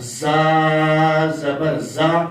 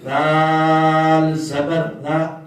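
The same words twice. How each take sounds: First: زا زبر زا chanted slowly with a firm, hard زا; سختی سے زا. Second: دال زبر دا chanted very slowly and gently; نرمی سے دا; soft da. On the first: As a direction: press زا hard. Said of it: "سختی کے ساتھ". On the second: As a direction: stretch each syllable softly. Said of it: "دال کو نرمی سے پڑھنا ہے". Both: Shown as a demonstration.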